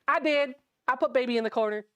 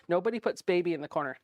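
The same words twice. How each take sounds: First: Put-on "I" punched high and loud in "I put Baby in the corner"; higher, louder retort with weight on "I"; joking comeback. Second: Said in the usual way. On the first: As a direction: claim it proudly, hitting "I" hard at the start. Joking comeback to the film line.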